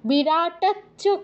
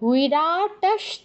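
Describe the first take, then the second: First: The ending is a doubled ch sound. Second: The ending is a sh sound then ch. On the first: The speaker calls it wrong. "বিরাটাচ্চ কেউ বলবেন না" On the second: The speaker calls it right. "আগে তালব্য স, তারপর চ"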